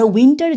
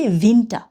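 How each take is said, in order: First: "উইন্টার" with a w, as written in English; English W in "winter". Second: "উইন্টার" the German way, v for w, no final r; German V in "Winter". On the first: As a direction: say "উইন্টার" as English "WIN-tar". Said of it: "ডাব্লিউ উচ্চারণ করে না". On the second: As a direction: say "উইন্টার" as "VIN-ta". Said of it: "তখন আমরা বলবো কি". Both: Shown as a demonstration.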